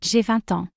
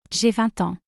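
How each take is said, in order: Both takes have the same delivery.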